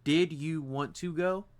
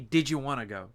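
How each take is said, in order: First: Each word is said separately and fully. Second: The words are run together quickly, Michigan style.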